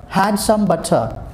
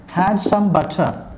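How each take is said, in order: Both takes have the same delivery.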